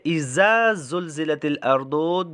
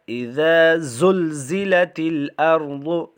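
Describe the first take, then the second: First: The first word is said with a z sound. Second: The first word is said with a dh sound. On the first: The speaker calls it wrong. "there is no difference between the first uh, uh, letter zal and the second one za" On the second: The speaker calls it right. "So do not read za instead of the letter zal"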